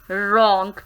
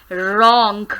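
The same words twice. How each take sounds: The two takes are said the same way.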